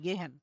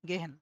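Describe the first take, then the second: The two takes are said the same way.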